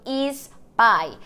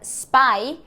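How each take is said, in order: First: An added vowel comes before the s sound. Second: It starts directly with the s sound. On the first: "a gente acaba falando is spy" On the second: "a palavra spy"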